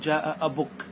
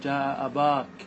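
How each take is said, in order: First: The vowel after the b is a short u. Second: The vowel after the b is a long a. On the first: This is a less common usage that drops the long vowel. "انقص هذه الحروف ... وتكتفي بالضمة" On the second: This is a valid usage but not the standard language. "أن تقتصر على الألف رفعا ونصبا وجرا"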